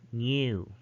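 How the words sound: A y glide comes before the oo. "But in British English, they would pronounce this as"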